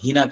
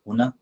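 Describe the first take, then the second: First: The first vowel is a front 'i' sound. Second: The first vowel is a rounded 'u' sound. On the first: This is the Gulf dialect form. "Gulf वाले लोग हिना कर देते हैं, हाँ पे जेर दे देते हैं" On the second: This is the formal standard Arabic form. "अरबी ये फुसहा लफ्ज है हुना"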